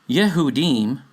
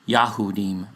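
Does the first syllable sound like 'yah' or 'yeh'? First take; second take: yeh; yah. First: The first syllable has an 'eh' vowel. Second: The first syllable has an 'ah' vowel. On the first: The speaker calls it wrong. "Yeh, not Yah, Yeh" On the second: The speaker calls it right.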